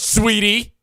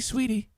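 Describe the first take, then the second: First: The word sounds harsh and aggressive. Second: The word sounds gentle and soft. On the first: The speaker is insulting the listener. The speaker calls it wrong. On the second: The speaker is being kind to the listener. The speaker calls it right.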